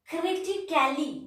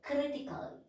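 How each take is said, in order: First: The -cal- syllable has a full vowel sound. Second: The -cal- syllable has no vowel sound. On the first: The speaker calls it wrong. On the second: The speaker calls it right. "We are not pronouncing A"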